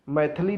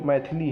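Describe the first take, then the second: First: मैथिली as "maith-lee"; wrong missing vowel. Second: मैथिली as "mai-thi-lee"; short middle vowel. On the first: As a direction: drop the i after th in मैथिली. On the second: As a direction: sound the i after th in मैथिली. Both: Shown as a demonstration. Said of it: "था पर छोटी ई की मात्रा".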